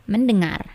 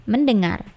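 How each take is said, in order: The two takes are said the same way.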